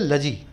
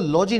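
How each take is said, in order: First: The first vowel is short and reduced. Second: The first vowel is a full, open 'aw' sound. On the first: The speaker calls it right. "आप इसको बोलोगे लजी" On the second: The speaker calls it wrong. "आप इसको लॉजी नहीं बोलोगे"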